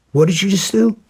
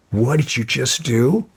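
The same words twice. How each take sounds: First: Retold demand, much higher and louder; angry shout. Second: Retold challenge, slightly raised; first demand, still holding back; indignant question. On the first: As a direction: repeat it, now blowing up. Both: Confronting man who kicked his dog.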